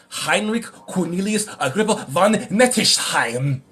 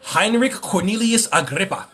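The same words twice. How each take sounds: First: "Heinrich Cornelius Agrippa von Nettesheim" slow and throaty, in a hammed-up German accent; mock German accent. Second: Said in the usual way. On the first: Shown as a demonstration. Streamer reading a German occultist's name aloud, in a mock German accent. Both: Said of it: "I had to read it like that".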